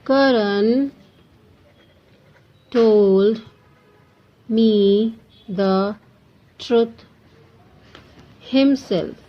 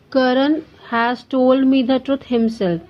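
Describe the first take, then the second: First: Slow, each word set apart by long pauses; word-by-word dictation. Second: Said in the usual way. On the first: Shown as a demonstration. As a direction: dictate it one word at a time for students to write. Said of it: "teacher dictates example sentence". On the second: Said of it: "teacher repeats sentence normally".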